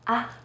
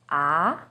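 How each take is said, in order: First: The syllable is light and short. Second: The pitch starts mid and rises. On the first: "you say it in a more light and short way" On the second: "Second tone, er sheng, starts with a little lower pitch and goes up"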